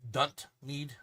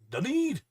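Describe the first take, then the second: First: The name is said with a t sound. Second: The name is said without a t sound. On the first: The speaker calls it wrong. "I don't know why I put the T in there" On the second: The speaker calls it right. "it's not got a T in it"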